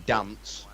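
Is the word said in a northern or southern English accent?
northern. It is said in a northern English accent. "we say dance"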